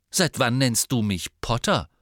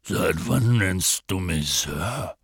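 First: Quicker, lighter comeback in a normal voice; pointed retort. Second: Slow, low, puzzled character voice; baffled giant. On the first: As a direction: throw the question back, landing on "Potter". Harry retorts, mirroring Hagrid's question. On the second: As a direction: draw it out in lumbering bewilderment. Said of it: "Hagrid blickte verdutzt". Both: A narrator's reading.

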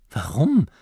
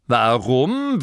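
First: Said in the usual way. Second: Warum? thrown back with a falling, scornful tone; mocking duke repeating; incredulous echo. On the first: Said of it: "fragte Masklin". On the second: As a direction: repeat his question as if it were absurd. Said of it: "wiederholte der Herzog".

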